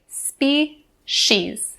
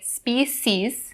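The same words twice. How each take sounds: First: The middle consonant is not said like C. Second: The middle consonant is said like the spelled C. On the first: The speaker calls it right. "We'll say species" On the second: The speaker calls it wrong. "even though this word is spelled with the C, we don't say species"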